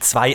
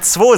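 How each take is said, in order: First: The number is said in standard German form. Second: The number is said in a regional dialect form. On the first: This is the usual way of saying it. "natürlich meine ich zwei" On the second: This is a different way that sounds cool. "wäre doch auch ganz cool, wenn man zwei sagen würde"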